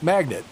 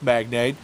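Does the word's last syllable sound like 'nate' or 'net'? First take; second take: net; nate. First: The last syllable sounds like 'net'. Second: The last syllable sounds like 'nate'. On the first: The speaker calls it right. "It is pronounced magnet" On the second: The speaker calls it wrong. "it's not pronounced magnate"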